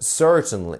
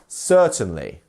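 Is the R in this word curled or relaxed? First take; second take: curled; relaxed. First: The R is curled over with the tongue. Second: The R is relaxed with no tongue curl.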